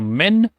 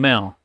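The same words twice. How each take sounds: First: The n sound is pronounced fully and clearly. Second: The n sound is hidden, barely articulated. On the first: "One is the normal one" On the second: "you pronounce it with a hidden sound"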